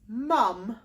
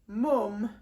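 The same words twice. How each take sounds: First: The vowel is a southern-sounding uh vowel. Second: The vowel is a northern-sounding vowel shape. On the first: "the word I'm giving you is mum" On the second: "if you go northern, ... if you say it mum, it's a completely different vowel shape"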